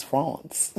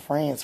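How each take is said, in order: First: France with a nasal French ah vowel, fronce; fancy French France. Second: France said the plain English way, flat a; wrong France. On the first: Teasing partner about French clothes, saying France the French way. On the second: Teasing partner, showing the wrong way to say it, English vowel. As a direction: say France like an English word, fran-ts. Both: Shown as a demonstration. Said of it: "not France, France".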